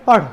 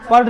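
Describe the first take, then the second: First: The last consonant is a curled-back tongue flap. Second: The last consonant is a plain aspirated stop. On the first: The speaker calls it right. "पीछे जाएगा और फेंकेगा उसको" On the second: The speaker calls it wrong. "पढ़ नहीं होगा"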